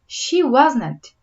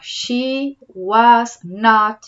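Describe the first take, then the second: First: Not is contracted onto the verb. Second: Not is said as a full separate word. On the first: "Muito mais fácil de se pronunciar" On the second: "eu não preciso falar"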